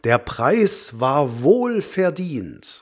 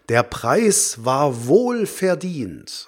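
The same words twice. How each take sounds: First: Wohlverdient is spoken as one compound word. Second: The same.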